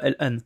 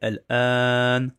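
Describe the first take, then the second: First: The vowel is said short, not drawn out. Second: The vowel is drawn out long. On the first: The speaker calls it wrong. "C'est pas al an" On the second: The speaker calls it right. "c'est al an"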